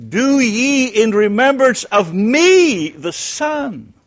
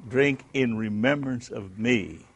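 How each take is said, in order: First: "me" leaned on, the whole line slow, high and loud; "Do ye in remembrance of me", dwell on "me" with a slow, loud rise; stress on me. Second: Said in the usual way. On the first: Shown as a demonstration. Teacher reading Jesus' words aloud, stressing "me" slow and loud. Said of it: "in contrast to that". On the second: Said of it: "how would you say that?".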